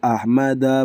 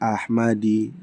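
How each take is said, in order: First: The name ends with an a vowel. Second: The name ends with an i vowel. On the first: The speaker calls it right. "dibacanya hadza kitabu Ahmada" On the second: The speaker calls it wrong. "bukan Ahmadi"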